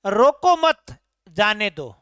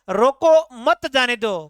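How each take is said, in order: First: "रोको मत" said as one unit, then a break before "जाने दो"; group रोको with मत, pause, then let जाने दो fall; pause after मत. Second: "रोको", short break, then loud "मत जाने दो" run together; emphatic comma break before मत; pause after रोको. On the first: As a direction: comma heard after मत. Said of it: "अल्प विराम का प्रयोग कर दिया". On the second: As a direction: punch मत and tie it to जाने दो. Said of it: "यहाँ विराम चिन्ह का प्रयोग कर दिया". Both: Shown as a demonstration.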